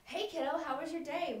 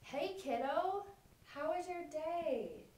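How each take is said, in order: First: It is spoken quickly, with little pausing. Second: It is spoken slowly, in a relaxed way. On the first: The child has little time to process and respond. The speaker calls it wrong. "Lindsay was speaking very fast to her child" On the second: The child has time to process and respond. The speaker calls it right. "a slower and more relaxed speaking rate"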